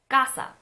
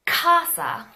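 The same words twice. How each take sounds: First: Casa said as gasa, unaspirated; soft gasa. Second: Casa loud and higher with a strong puff on the c; aspirated casa. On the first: Teacher showing the Spanish casa. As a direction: soften the c of casa almost to g. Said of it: "it's more of a gasa". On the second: Teacher exaggerating the wrong English casa. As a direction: blast air on the c of casa. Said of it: "We don't say". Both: Shown as a demonstration.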